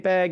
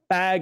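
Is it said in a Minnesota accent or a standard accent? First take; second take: Minnesota; standard. First: It is said with a Minnesota accent. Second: It is said with a non-Minnesota accent.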